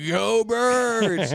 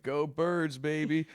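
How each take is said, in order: First: High, loud, drawn-out fan yell; whooping mock cheer; imitated drunken cheer. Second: Said in the usual way. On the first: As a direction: holler the team chant, stretching it out. Repeats cheer as wasted friend, yelled.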